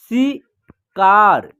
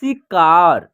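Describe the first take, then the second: First: शिकार broken into शि and कार with a pause; split syllables. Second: शिकार joined up, lower at the end; blended word. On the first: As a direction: sound out शिकार slowly in two parts. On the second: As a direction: say शिकार as one whole word. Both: Shown as a demonstration. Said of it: "हम दूसरा तरीका देखिए".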